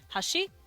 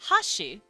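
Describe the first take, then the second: First: The higher pitch falls on the second syllable. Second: The higher pitch falls on the first syllable. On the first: It means bridge. "you put stress and tone on the shi part" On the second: It means a completely different word. "put the higher pitch and the pitch accent to the ha part"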